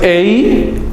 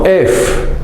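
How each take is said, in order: First: It ends in a vowel glide. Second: It ends in an f sound. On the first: The speaker calls it wrong. "No es ei" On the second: The speaker calls it right. "sino ef"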